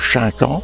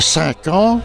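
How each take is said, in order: First: The name starts with a 'ch' sound. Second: The name starts with a plain 's' sound. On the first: The speaker's own village says it this way. "Nous disions le cinq ans" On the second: The hamlet's people say it this way. "eux disaient"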